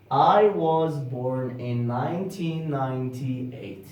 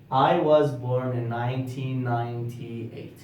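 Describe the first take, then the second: No difference in how they are said.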